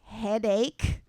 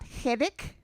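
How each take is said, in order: First: The word ends with an 'ache' sound. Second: The word ends with an 'ic' sound. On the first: The speaker calls it right. "the word is headache" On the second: The speaker calls it wrong. "not headache. H E D I C"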